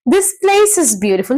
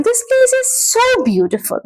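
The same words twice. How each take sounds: First: Said in the usual way. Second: "so" pitched high and stretched for emphasis; emphatic SO. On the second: Shown as a demonstration. Teacher showing students the emphatic word, high stress on "so". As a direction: gush it, leaning hard on "so". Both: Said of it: "emphatic "so".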